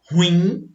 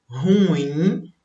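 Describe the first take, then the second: First: Ruim stressed on the first syllable, RU-im; the incorrect "ruim", quick, RU first; paroxytone stress. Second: Ruim stressed on the last syllable, ru-IM; the correct "ruim", slow ru-IM; oxytone stress. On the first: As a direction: hit RU in "ruim". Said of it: "poderiam pronunciar como paroxítonas". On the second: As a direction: draw out IM in "ruim". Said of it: "O certo seria". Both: Shown as a demonstration.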